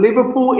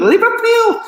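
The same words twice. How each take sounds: First: Said in the usual way. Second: Very high, loud mock Scouse; hammed-up Liverpudlian shout; terrible Liverpool accent. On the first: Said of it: "So that's a terrible accent". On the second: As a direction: attempt a squealed Liverpool accent, badly. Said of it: "So that's a terrible accent, I know, but I tried".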